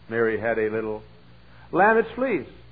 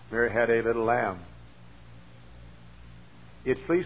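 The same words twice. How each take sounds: First: The words run on with no pause after 'lamb'. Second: There is a clear pause after 'lamb'. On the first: The speaker calls it wrong. "I didn't know how to quote it" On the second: The speaker calls it right. "stop at the end of the sentence and take a breath there"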